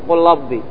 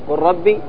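First: The second word starts with an l-like sound. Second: The second word starts with a clear r sound. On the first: The speaker calls it wrong. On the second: The speaker calls it right.

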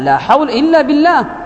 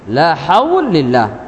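First: The phrase is said in full with 'illa' pronounced. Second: The phrase is rushed and 'illa' is swallowed. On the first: All change happens only through God. The speaker calls it right. "كيف لا" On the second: It wrongly says God has no power. The speaker calls it wrong. "كان من عجلتهم في الإتيان به أن يخلوا باللفظ"

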